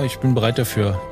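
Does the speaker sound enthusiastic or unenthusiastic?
unenthusiastic. It is said flatly, without enthusiasm. The readiness is only half-hearted. The speaker calls it wrong. "ich meine nicht dieses"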